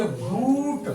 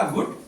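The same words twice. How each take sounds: First: "घूट" slow, with the oo drawn long. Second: "घुट" with a quick short u; short light u. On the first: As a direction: pull out the oo in "घूट". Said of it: "इसको तेजी से बोला घूट". ("घूट" में ऊ को खींचकर, धीरे) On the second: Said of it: "इसको हल्के से बोला घुट". ("घुट" में छोटा हल्का उ) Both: Shown as a demonstration.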